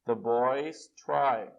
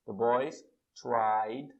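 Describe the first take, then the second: First: Put-on The boys try stretched out slowly and loud; very slow model sentence. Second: Put-on The boys tried drawn out slowly; very slow model sentence. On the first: Teacher dictating an example very slowly. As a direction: drag each word out for the class. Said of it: "slow model sentence". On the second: Teacher dictating the past form very slowly. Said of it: "a pronúncia é a mesma coisa". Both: Shown as a demonstration.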